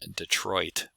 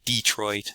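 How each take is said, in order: First: The stress is on the second syllable. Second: The stress is on the first syllable. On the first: "as I would produce it" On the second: "where there's initial syllable stress"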